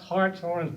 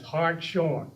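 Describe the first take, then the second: First: The name is divided as Harts-horn. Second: The name is divided as Hart-shorn. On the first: The speaker calls it right. "It is the name of a horned heart" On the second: The speaker calls it wrong. "pronounced Hartshorn's name as Hartshorn"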